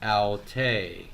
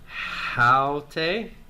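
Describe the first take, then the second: First: No h sound; stress on the second syllable. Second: Starts with h; stress on the first syllable. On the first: It means she. "Smooth breathing, accent on the second syllable" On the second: It means this. "rough breathing and accent on the first syllable"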